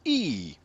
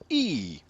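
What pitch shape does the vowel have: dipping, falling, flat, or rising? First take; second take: falling; falling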